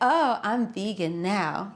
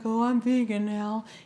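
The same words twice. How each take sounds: First: It sounds confident and excited. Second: It sounds apologetic and hesitant.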